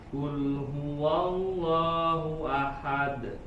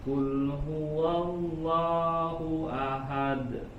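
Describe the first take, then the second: No difference in how they are said.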